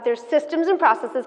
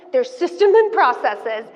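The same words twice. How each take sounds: First: Said in the usual way. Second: "There's systems and processes" slow, each word pressed; ringleader emphasis. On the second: Shown as a demonstration. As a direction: announce it like a ringleader, slow and deliberate. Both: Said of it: "Can you tell I'm a ringleader?".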